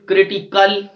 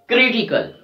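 First: "critical" with the weight on final CAL; wrong stress, last syllable. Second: "critical" with strong first syllable, falling away; stress on CRI. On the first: Teacher showing what we don't say, "critiCAL" stressed last. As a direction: push the CAL at the end of "critical". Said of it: "We don't say". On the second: Teacher correcting the wrong version, stressed "CRItical". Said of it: "We are stressing on the syllable which is third". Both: Shown as a demonstration.

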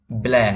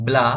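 First: ব্ল্যা tilted towards ae; slanted "ae" vowel. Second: ব্লা said straight, with open aa; straight "a" vowel. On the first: Teacher shows how the letters can also sound, ব্ল্যা with slanted ae. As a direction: say ব্ল্যা slightly slanted, as in "cat". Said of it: "একটু কাত করে". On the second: Teacher explains the Bengali aa-kar reading, ব্লা with straight aa. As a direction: make ব্লা rhyme with "spa". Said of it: "এটা সোজা করে উচ্চারণ করি আমরা". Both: Shown as a demonstration.

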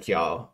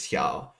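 First: Said in the usual way. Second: Texan drawl hya. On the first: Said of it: "copy that "hya". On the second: Retold or imitated. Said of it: "a guy with sort of a Southern drawl or a Texan drawl".

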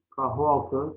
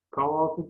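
First: Said in the usual way. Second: "Kahvaltı" without the h, kavaltı; dropped h in "Kahvaltı"; misspelt form. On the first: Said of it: "doğrularını yazalım". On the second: Shown as a demonstration. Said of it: "yanlış yazılmış olan sözcüklerin".

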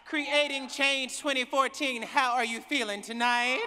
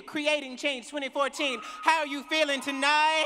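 First: Loud call to the crowd, rising on how. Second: Shouting to the crowd, higher and louder, punching how; louder call to the crowd. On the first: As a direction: greet the whole hall with a loud call. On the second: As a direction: demand a bigger answer from the hall. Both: Real, not acted. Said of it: "I don't know if I believe you".

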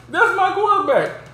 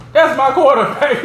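First: Much higher, excited imitation of T.O; T.O. impression. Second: Proud cheer. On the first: Recalling T.O.'s famous line, high excited imitation. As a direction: squeal it like T.O. on the sideline. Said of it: "Remember how T.O. was like". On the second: Retold or imitated. To friends, admiring Ben's trick play, proud cheer. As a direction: hype it up like a proud teammate. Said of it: "I'm looking like".

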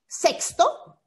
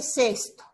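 First: "sexto" said with a clear ks, seks-to; teacher sounds the X in "sexto" as ks. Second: "sexto" said with a plain s, ses-to; teacher sounds "sexto" with only an s, no ks; sesto with S. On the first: Teacher shows the class "sexto" with a ks sound. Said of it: "porque aquí tenemos una X". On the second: Teacher shows the class "sexto" said with a plain s. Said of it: "acá es una S". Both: Shown as a demonstration.

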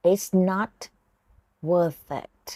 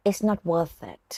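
First: "It's not" rising, pause, "worth it" falling; split phrase. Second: Said in the usual way. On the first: Shown as a demonstration. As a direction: chunk it for the learner. (แยกพูด "It's not" กับ "worth it" มีช่วงหยุด) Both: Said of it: "ฝึกฟังแล้วออกเสียงตาม[name]นะคะ".

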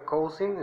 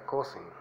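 First: "cousin" sounded out from its spelling, "cou-SIN"; leído como se escribe. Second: "cousin" said the English way, stressed "CO-sin"; pronunciación inglesa. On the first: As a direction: read "cousin" letter by letter, higher pitched. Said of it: "se escribe cousin". ("cousin" leído tal como se escribe) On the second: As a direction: say "cousin" short, falling after the first syllable. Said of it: "se pronuncia cousin". ("cousin" pronunciado en inglés, como "cósin") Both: Shown as a demonstration.

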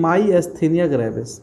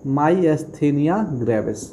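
First: Said in the usual way. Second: Myasthenia gravis stretched out syllable by syllable, very slow; slow emphatic naming. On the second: Shown as a demonstration. Teacher naming an important disease for students, very slow. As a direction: lay the disease name down slowly so it sticks. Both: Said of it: "important disease है।".

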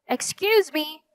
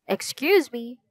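First: Higher, more insistent call; louder voice. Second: Said in the usual way. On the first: A narrator's reading. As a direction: raise your voice a little to get attention. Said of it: "in a louder voice". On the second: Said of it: "said again in a louder voice".

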